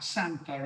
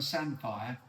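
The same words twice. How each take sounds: First: "samphire" said as SAM-fer; local pronunciation. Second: "samphire" said as SAM-fire; spelling pronunciation. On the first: Naming the disputed word, SAM-fer pronunciation. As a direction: end "samphire" on a weak -fer. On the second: Naming the disputed word, SAM-fire pronunciation. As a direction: end "samphire" on a full -fire. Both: Shown as a demonstration. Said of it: "this whole thing about samphire and samphire".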